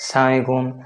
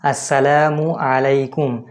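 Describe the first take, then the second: First: The greeting is rushed, with its opening syllable dropped. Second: Every syllable of the greeting is said fully. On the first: The speaker calls it wrong. "অনেকে সালামের সালাম দেয় রানিং অবস্থাতে" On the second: The speaker calls it right. "এটা সঠিক উচ্চারণ"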